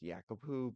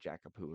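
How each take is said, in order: First: The name begins with a Y sound. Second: The name begins with a J sound. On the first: This is the pronunciation found by looking it up. "it might be pronounced Yakapoo" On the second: This is how the reader said it while reading. "I pronounced it Jacopoo in my head"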